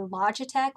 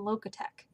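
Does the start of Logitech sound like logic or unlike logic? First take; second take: like logic; unlike logic. First: The first part sounds like the word logic. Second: The first part does not sound like logic. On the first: The speaker calls it right. "it's actually Logitech, like logic and technology" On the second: The speaker calls it wrong. "I'm going to continue to call them Logitech"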